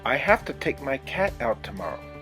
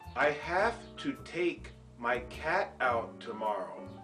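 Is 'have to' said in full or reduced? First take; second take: reduced; full. First: 'Have to' is reduced to a quick 'hafta'. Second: 'Have to' is said fully, each sound clear. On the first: "have to reduces to have to" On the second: "in formal pronunciation"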